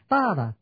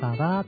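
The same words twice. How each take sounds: First: The stress is on the first syllable. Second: The stress is on the second syllable. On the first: This is a trochee that changes the rhythm. "sẽ có thô cái x ta ra" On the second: This is the main iambic rhythm. "I am ta đi, ta ra, ta ra, ta ra là nhịp chính"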